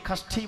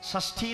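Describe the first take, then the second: First: The word begins with a 'kh' sound. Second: The word begins with an 'sh' sound. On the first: "खष्ठी बोलते हैं मिथिला में" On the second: "षष्ठी नहीं बोलते"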